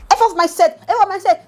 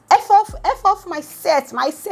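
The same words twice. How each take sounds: First: Laughing. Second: Angry outburst. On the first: Real, not acted. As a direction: quote it high while laughing. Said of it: "they make me laugh". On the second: Retold or imitated. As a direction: throw him off the set. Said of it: "Pere's like".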